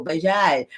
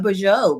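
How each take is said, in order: First: French bonjour repeated lower and softer, falling; lower French greeting. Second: French bonjour with a nasal first vowel, falling; French greeting. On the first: Greeting viewers again in French, a lower French-accented bonjour. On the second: Greeting viewers in French, a French-accented bonjour. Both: Shown as a demonstration. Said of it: "I'm speaking French now".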